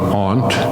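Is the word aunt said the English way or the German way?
German. Aunt is said with a German-style pronunciation. "if you're German, I think you say"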